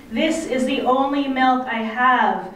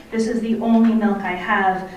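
First: Higher, sustained call, only mildly raised. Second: Said in the usual way. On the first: A narrator's reading. Mother pleading to carer and baby through snowstorm, calling out. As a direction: call it across a distance, pitch lifted. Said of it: "I am calling to Miss Birdie".

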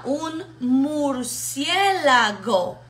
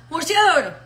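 First: Very slow "mur-cié-la-go", syllable by syllable; patient, spelled-out "murciélago"; broken into little pieces. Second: "murciélago" garbled into one quick blur, higher and louder; hurried, slurred learner's "murciélago"; fast and run together. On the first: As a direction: stretch and separate each syllable of "murciélago". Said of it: "te lo divide en pedacitos". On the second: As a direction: swallow the syllables of "murciélago" in a rush. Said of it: "la dice rápido y lo pega todo". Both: Shown as a demonstration.

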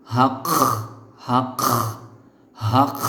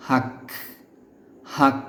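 First: হাক with a drawn-out scraping kh at the end; wrong kh ending. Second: হাক with a crisp stopped k; correct k ending. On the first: Teacher warns learners of a big mistake, wrong kh ending. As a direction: rasp the last sound of হাক as kh. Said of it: "যদি আপনি এভাবে বলেন". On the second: Teacher gives learners the correct pronunciation, correct k ending. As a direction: close হাক cleanly on k, no scraping. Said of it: "এটা সঠিক উচ্চারণ হবে". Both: Shown as a demonstration.

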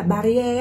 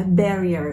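First: "barrier" as "ba-ri-e"; "barrier" with open a, ending on e; Vietnamese pronunciation. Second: "barrier" as "BAE-ri-er"; English "barrier", ending in a schwa; English pronunciation. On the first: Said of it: "Mình hay nghe tiếng Việt nói là". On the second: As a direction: stress the first syllable of "barrier". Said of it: "thì cái này sẽ là barrier". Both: Shown as a demonstration.

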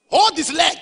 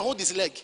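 First: Loud repeated command. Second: Said in the usual way. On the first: Real, not acted. Preacher ordering the young man to beg, loud and high. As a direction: Hold said higher and much louder.

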